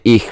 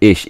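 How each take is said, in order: First: The word is said in the standard way. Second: The word is said in a regional way. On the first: This is the expected pronunciation. "You're supposed to say ich" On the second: This is how people in one region say it. "But they said ich. So it must be regional thing"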